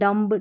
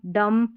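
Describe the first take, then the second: First: A B sound follows the final M. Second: The word ends on the M sound. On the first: The speaker calls it wrong. "इस तरीके से नहीं पढ़ना" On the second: The speaker calls it right. "इस तरीके से पढ़ना है"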